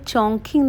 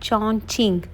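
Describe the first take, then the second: First: The second syllable starts with a k sound. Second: The second syllable starts with a ch sound. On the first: The speaker calls it wrong. "നമ്മൾ നേരത്തെ ഞങ്ങൾ ചോങ്കിങ് എന്നാണ് പറഞ്ഞത്. ആക്ച്വലി അങ്ങനെയല്ല" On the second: The speaker calls it right. "ശരിക്കും പ്രൊണൗൺസ് ചെയ്യാൻ, ... ചീന്നുള്ള ആ ഒരു പ്രൊണൗൺസിയേഷനാണ്"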